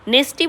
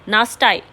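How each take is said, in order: First: The word ends with an 'ee' sound. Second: The word ends with an 'eye' sound. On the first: It is the usual way the word is said. "नेस्टी बोला जाता है वैसे तो इसको" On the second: It splits the word to help memory. "इस तरीके से आप याद रख सकते हो"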